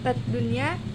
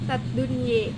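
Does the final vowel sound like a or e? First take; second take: a; e. First: The final vowel is a plain open a. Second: The final vowel is fronted toward e.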